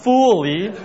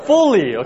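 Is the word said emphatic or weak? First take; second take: weak; emphatic. First: The word is said weakly, without emphasis. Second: The word is said with strong emphasis. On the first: The speaker calls it wrong. "No, not fully" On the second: The speaker calls it right. "You have to stress the word fully"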